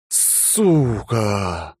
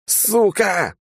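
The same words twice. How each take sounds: First: Exhausted breathy swear; exhaled curse. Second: High yelp of pain, one sharp shout; sudden pained outburst; yelled curse. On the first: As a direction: sigh the curse out while slumping on the wall. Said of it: "выдохнул я". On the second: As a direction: scream the curse as the ear is cut off. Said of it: "я заорал". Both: A narrator's reading.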